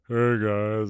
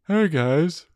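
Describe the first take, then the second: First: It is said in a lower voice. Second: It is said in a higher voice.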